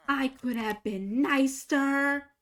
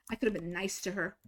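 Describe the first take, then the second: First: Regretful. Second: Said in the usual way. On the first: Real, not acted.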